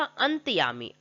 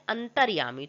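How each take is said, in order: First: अंतयामी with the "r" left out; wrong form. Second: अंतर्यामी with the "r" sounded before "yaami"; correct form. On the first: Teacher shows the misspelt word, अंतयामी without its "r". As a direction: say अंतयामी, no "r" before "yaami". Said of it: "अंतयामी नहीं होता". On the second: Teacher corrects the word, अंतर्यामी with a clear "r". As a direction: say an-tar-yaa-mi, keeping the "r" in अंतर्यामी. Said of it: "क्या होता है". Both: Shown as a demonstration.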